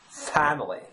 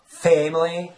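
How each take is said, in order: First: The first vowel is a wide ah sound. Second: The first vowel is a narrow eh sound. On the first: "is not really pronounced ah. It's not as wide" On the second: "That that would remind me of the southern accent"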